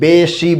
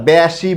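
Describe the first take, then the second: First: The first vowel is a closed e sound. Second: The first vowel is an open e sound. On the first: The speaker calls it right. "বেশি বলি" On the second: The speaker calls it wrong. "তাই আমরা বেশি বলি না"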